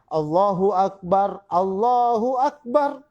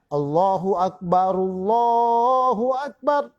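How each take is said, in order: First: The second Allah starts with its own glottal A. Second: The second Allah links on without its initial A. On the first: The speaker calls it wrong. "banyak tukang azan kita itu" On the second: The speaker calls it right.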